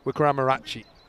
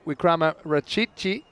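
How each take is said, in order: First: The 'ch' syllable is said once. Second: The 'ch' syllable is said twice. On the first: The speaker calls it right. "It's actually Wickramaratchi" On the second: The speaker calls it wrong. "I ruined it the first time"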